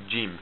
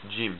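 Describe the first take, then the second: First: It begins with an English j sound. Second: The same.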